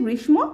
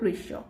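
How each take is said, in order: First: Every sound of the word is said literally. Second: The word is said in its natural spoken form. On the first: The speaker calls it wrong. "পড়লে বোঝা যাচ্ছে গ্রীষ্ম" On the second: The speaker calls it right. "কিন্তু উচ্চারণটা হবে গ্রীষ্ম"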